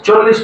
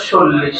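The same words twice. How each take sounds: First: Said in the usual way. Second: "চল্লিশ" said as sollish; "চল্লিশ" with s in place of ch; s replacing ch. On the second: Shown as a demonstration. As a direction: begin "চল্লিশ" with a hissed s. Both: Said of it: "চ কে দন্ত স উচ্চারণ করবো".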